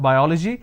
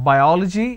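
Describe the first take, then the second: The two takes are said the same way.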